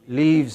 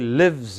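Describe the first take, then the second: First: The vowel is long, as in leave. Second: The vowel is short, as in bit. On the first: The speaker calls it wrong. "It should not be" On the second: The speaker calls it right. "It should be"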